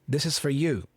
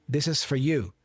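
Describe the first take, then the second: The two takes are said the same way.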